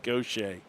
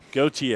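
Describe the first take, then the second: First: The name is pronounced in a Louisiana style. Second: The name is pronounced in a non-Louisiana style. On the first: The speaker calls it wrong. "I think Louisiana. I think I think Gaucher" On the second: The speaker calls it right. "apparently it's go, go what is it? Gautier"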